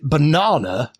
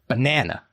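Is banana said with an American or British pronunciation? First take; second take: British; American. First: It is said with a British pronunciation. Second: It is said with an American pronunciation. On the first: "over here in Blighty, we say banana and bonanza" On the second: "in America and other places, I think it, bonanza and banana are pronounced the same"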